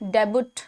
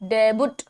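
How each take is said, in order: No difference in how they are said.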